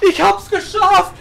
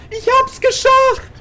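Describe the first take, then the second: First: High joyful cry; excited. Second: Very high, slow elated cry; ecstatic. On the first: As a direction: burst out in relief. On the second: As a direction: stretch it out in ecstasy. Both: Real, not acted. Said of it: "repeated in rising joy".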